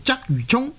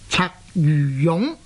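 First: The name uses the everyday popular reading. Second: The name uses the reading given in dictionaries. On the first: This is the reading most people know and use. "佢嘅地名呢就叫做鰂魚涌，大家都知道的" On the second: This is the standard reading that few people would recognise. "它的正確的讀音呢是應該呢是讀做鰂魚涌"

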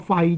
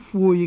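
First: The syllable is pronounced fai. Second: The syllable is pronounced fui. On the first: "由虎胃就可以切成一个肺字的音" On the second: "它是音晦的"

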